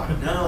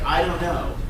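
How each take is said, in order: First: It is said sheepishly and apologetically. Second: It is said firmly and confidently. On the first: The speaker feels guilty for not knowing. The speaker calls it wrong. "most people's instincts are like, oh, ... and they feel bad about it" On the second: Not knowing is nothing to be ashamed of. The speaker calls it right. "if you can say that in a confident way"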